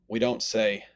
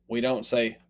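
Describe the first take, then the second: No difference in how they are said.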